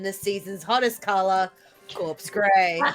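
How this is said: It is read flatly, with little enthusiasm. The speaker calls it wrong.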